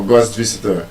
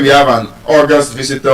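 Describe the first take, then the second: First: The stress is on the second syllable of August. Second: The stress is on the first syllable of August.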